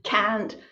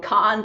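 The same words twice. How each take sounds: First: It is said in a North American accent. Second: It is said in a British accent. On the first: "not to have the North American accent" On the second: "speak with a British English accent"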